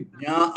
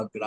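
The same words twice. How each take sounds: First: జ్ఞా as palatal j-nya, no g; correct pronunciation. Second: జ్ఞా said as gna; regional pronunciation. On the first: Teacher giving the proper form, జ్ఞా as jnya. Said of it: "వాస్తవానికి జ్ఞా అనే పలకాలి". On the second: Teacher showing the common variant, జ్ఞా as gna. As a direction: start జ్ఞా with a hard g before the n. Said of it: "జ్ఞా అని పలుకుతుంటారు మరి". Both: Shown as a demonstration.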